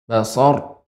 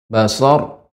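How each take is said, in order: No difference in how they are said.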